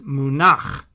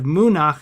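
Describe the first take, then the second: First: The stress is on the second syllable. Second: The stress is on the first syllable. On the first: The speaker calls it right. "this little backwards L under the nun is telling us that that's where the accent is" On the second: The speaker calls it wrong. "instead of Munach"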